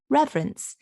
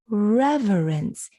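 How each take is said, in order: First: The middle syllable is dropped, giving two syllables. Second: The middle syllable is pronounced, giving three syllables. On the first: This is the everyday way of saying it. "we usually drop that middle syllable and we just make it two syllables" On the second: This is a formal, oratorical style. "He pronounces that middle syllable"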